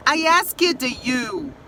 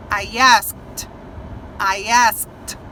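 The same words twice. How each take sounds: First: ASKED drawn out as "as-ki-dju"; common learner mistake. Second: ASKED as one syllable, "ast"; correct pronunciation. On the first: Teacher imitating how some people talk, asked mispronounced as as-ked. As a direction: say "asked" slowly with an extra -ed syllable. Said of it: "tem gente que fala assim". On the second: Teacher modeling the past tense, asked ending in a t sound. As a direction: finish "asked" on a crisp t. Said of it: "como se fosse um T". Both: Shown as a demonstration.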